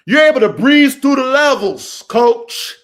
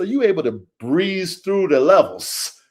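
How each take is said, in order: First: Loud, raised-pitch coach's holler; big motivational yell; emphatic shout. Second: Said in the usual way. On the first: Real, not acted. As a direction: shout it to drive the point home. Repeats the point at full volume.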